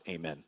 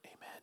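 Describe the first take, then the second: First: The word is shouted loudly. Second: The word is whispered softly.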